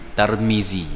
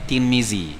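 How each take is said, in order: First: The first vowel is an 'a' sound. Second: The first vowel is an 'i' sound. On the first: This is how Malays usually say the name. "Kita Melayu Tarmizi" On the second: This is how Arabs usually say the name.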